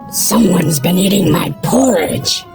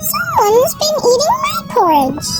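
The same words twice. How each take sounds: First: A deep, growling Daddy Bear voice. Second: A high, squeaky Baby Bear voice.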